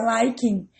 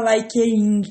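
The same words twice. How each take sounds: First: "liking" in two syllables, LI-king; correct pronunciation. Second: "likeing" with an extra vowel before the -ing; wrong pronunciation. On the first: Teacher gives students the right form, "liking" said as two smooth syllables. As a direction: run "liking" together with no extra vowel before -ing. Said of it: "vai ficar liking". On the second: Teacher shows students the form to avoid, wrong pronunciation of "likeing". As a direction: say "likeing" as two pieces, like-ee-ing. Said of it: "não vai ficar likeing". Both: Shown as a demonstration.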